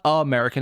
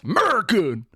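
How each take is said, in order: First: "American" with its opening A sounded; "American" pronounced in full, A first. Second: "Merkin", American with the opening A dropped; "Merkin" as a squashed American; clipped-A "Merkin". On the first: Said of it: "Except he said American. He got the A in there still". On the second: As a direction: say "Merkin" in two syllables, no leading A. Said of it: "That's completely wrong. It's not American". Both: Shown as a demonstration.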